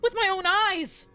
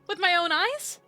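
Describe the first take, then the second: First: It is said as an exclamation. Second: It is said as a rising question.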